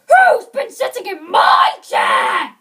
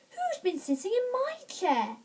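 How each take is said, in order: First: It is said in a great big voice. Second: It is said in a middle-sized voice. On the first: "in his great big voice" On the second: "in a middle-sized voice"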